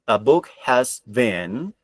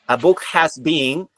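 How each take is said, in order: First: The word been does not sound like being. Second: The word been sounds like being. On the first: The speaker calls it right. "you have to pronounce a book has been" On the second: The speaker calls it wrong. "if you say being, ... that is not correct"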